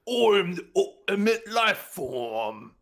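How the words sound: It is spoken in an English accent. "a little less like English English"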